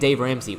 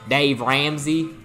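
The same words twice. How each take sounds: First: The name is said in a normal voice. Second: The name is said in a put-on voice. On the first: "instead of saying" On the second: "We always made kind of a voice when saying his name"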